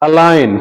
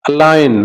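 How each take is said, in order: Both takes have the same delivery.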